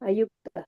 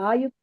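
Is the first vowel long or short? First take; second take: short; long. First: The first vowel is kept short. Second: The first vowel is held long. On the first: The speaker calls it right. "ಚಿಕ್ಕದಾ ಇದೆ ನೋಡಿ" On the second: The speaker calls it wrong. "ಆಯುಕ್ತ ಅಲ್ಲ"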